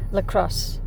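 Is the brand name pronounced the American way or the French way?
American. The name is pronounced with American sounds. "as we pronounce it in the United States"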